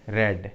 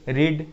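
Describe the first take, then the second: First: The vowel is a short 'e' sound. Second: The vowel is a long 'ee' sound. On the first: It is the past participle form of the verb. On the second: It is the present form of the verb.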